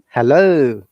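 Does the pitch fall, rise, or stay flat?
rise. The pitch goes from low to high. "it is going from down to up"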